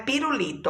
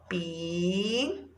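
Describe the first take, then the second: First: Said in the usual way. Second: "Pirulito" as pi, ru, li, to, long pauses between; syllable by syllable. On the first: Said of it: "a primeira palavra". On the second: Shown as a demonstration. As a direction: softly stretch each syllable of "Pirulito". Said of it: "palavras que nós vamos separar".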